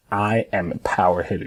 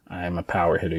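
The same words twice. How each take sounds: First: Firm, deliberate declaration of "I am a power hitter"; with conviction. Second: Subdued, half-hearted recital; unconvinced. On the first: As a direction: say it like you mean it. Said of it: "You see how I, like, said it and you can feel it?". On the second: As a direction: say it quietly, as if you don't believe it. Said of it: "you can't even say it like this". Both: Shown as a demonstration.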